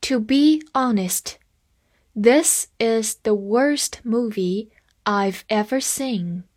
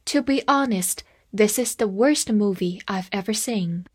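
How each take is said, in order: First: Slow, careful read-along for learners; deliberate classroom pace. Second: Said in the usual way. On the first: Shown as a demonstration. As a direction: read it slowly so students can follow. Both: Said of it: "跟着我慢慢来读".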